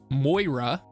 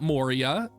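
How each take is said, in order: First: The name sounds like MOY-ra. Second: The name sounds like mo-REE-a. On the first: The speaker calls it right. "It is Moira" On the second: The speaker calls it wrong. "it is not Moria"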